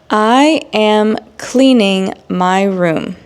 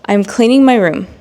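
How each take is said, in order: First: It is spoken slowly with full words. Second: It is spoken at normal pace, contracted. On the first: "examples again in slow English" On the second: "then I will provide the normal speed"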